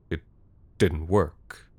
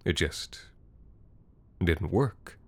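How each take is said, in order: First: Said in the usual way. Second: Quiet stunned narration; hushed repeat. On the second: A narrator's reading. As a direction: let the disbelief sink in quietly. Narrator repeats the phrase, softer.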